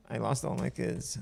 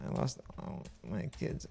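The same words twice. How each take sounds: First: Said in the usual way. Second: Breathy whisper. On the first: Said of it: "repeats it whispering". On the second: Shown as a demonstration. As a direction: whisper the line. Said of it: "second take whispered".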